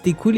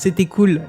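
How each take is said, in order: First: The first word is squeezed into one short syllable. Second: Every syllable of the first word is clearly said. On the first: "les gens réduisent et disent" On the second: "au lieu de dire"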